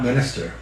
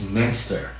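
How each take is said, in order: First: It is said with three syllables. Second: It is said with two syllables. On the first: The speaker calls it wrong. "It's not Minister" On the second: The speaker calls it right. "it's Minster. There is no I in Min"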